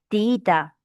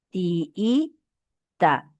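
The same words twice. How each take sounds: First: Said in the usual way. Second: "Tiita" drawn out as ti, i, ta with gaps; separated vowels. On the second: Shown as a demonstration. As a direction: split the double i in "Tiita" into two held beats. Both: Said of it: "Separación y unión de vocales".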